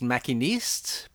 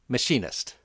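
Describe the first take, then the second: First: The name is pronounced the French way. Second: The name is pronounced the English way. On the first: This is the original form of the name. "It's originally pronounced Machiniste" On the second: This is the changed, neutral form of the name. "I changed the pronunciation"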